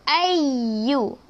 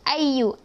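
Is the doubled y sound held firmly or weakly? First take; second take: firmly; weakly. First: The doubled y sound is pressed and held firmly. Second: The doubled y sound is pressed only weakly. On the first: The speaker calls it right. "Kita kena baca ayyu" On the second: The speaker calls it wrong. "Jangan ayyu. Macam tak berapa nak tekan sangat kan?"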